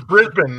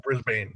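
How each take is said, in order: First: "Brisbane" said as BRIZ-bin; correct local pronunciation. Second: "Brisbane" said as BRIZ-bane; mispronunciation demonstrated. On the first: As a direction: clip "Brisbane" to a short, unstressed -bin ending. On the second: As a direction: give "Brisbane" a full -bane ending rhyming with rain. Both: Shown as a demonstration. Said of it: "not Brisbane".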